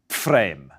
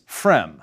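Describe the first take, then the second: First: The name begins with a combined pf sound. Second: The name begins with a plain f sound. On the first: This is the older German way of saying the name. "my ancestors ... probably pronounced it as Pfrem" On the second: This is the English way of saying the name. "In English, it's pronounced as Frem"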